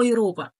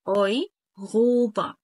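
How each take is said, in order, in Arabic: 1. الراء صوت مطروق أمامي. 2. الراء صوت لهوي حلقي يشبه الغين.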